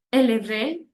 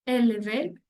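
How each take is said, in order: Both takes have the same delivery.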